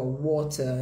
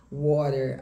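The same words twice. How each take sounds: First: British "water", crisp T, ending in "ah"; sotaque britânico. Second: American "water", tapped T and sounded R; sotaque americano. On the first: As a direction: say "water" as "waw-tah", British. (sotaque britânico, T claro, sem R) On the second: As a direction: say "water" as "wah-der", American. (sotaque americano, T batido e R final) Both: Shown as a demonstration. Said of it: "em inglês americano e britânico".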